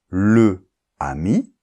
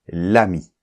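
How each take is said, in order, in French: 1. La voyelle de 'le' est entièrement prononcée. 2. La voyelle de 'le' disparaît complètement. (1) "au lieu de dire le ami" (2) "ça fait l'ami"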